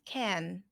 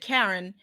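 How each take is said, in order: First: It sounds like can, with a flat R. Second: It sounds like the name Karen. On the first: This is how the speaker would say it. The speaker calls it right. "Flat R" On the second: This imitates how someone else said it. The speaker calls it wrong. "but you said Karen"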